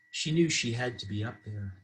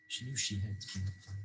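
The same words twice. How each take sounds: First: Said in the usual way. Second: Much softer, trailing afterthought; hushed repeat. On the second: A narrator's reading. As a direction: drop to a near-murmur.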